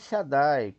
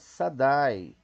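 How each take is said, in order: First: The word begins with a sh sound. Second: The word begins with a plain s sound. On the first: The speaker calls it right. "mas sim Shaddai, com Shin" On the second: The speaker calls it wrong. "não pronuncia Sadai, como a gente leu, como pecado"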